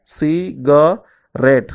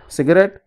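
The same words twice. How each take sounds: First: "cigarette" slowly as ci - ga - rette; three separate beats on "cigarette"; split into syllables. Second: Said in the usual way. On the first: Shown as a demonstration. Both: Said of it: "divide the word into syllables".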